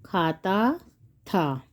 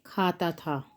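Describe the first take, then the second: First: खाता drawn out rising, pause, था dropped low; slow dictation. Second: Said in the usual way. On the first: Shown as a demonstration. Teacher writing out the answer, slow dictation.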